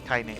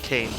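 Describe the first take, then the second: First: The name is said with a German pronunciation. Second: The name is said with an English pronunciation. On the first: The speaker calls it right. "pronounced the German way" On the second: The speaker calls it wrong. "not Kane"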